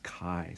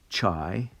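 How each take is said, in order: First: It begins with a hard k sound. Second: It begins with a soft ch sound. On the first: The speaker calls it right. "it's actually pronounced with a long I, so it's chi" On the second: The speaker calls it wrong. "it's not ch- chai"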